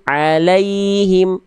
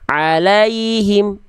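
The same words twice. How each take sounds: First: The 'lai' sound is said soft and gentle. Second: The 'lai' sound is said hard and abrupt. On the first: The speaker calls it right. "la kayaknya lembut" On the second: The speaker calls it wrong. "jangan dibaca gini"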